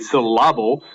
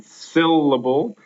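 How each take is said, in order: First: Syllable said as sy-LLA-ble; syllable with the middle syllable stressed; wrong stress on the middle. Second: Said in the usual way. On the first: Shown as a demonstration. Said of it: "if you were to stress the, the middle". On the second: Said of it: "and syllable".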